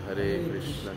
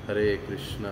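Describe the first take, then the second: No difference in how they are said.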